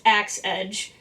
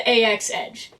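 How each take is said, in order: First: The first part is said as one word. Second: The first part is spelled out as letters. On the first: The speaker calls it right. "it's actually pronounced Axe Edge" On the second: The speaker calls it wrong. "I've been saying it wrong for like two years now"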